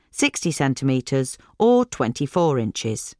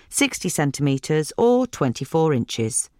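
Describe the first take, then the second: No difference in how they are said.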